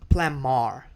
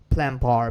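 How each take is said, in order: First: The second syllable starts with an M sound. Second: The second syllable starts with a B sound. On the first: The speaker calls it right. "instead of B sound, they say M sound" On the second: The speaker calls it wrong. "the pronunciation would be plan bar because there's a B"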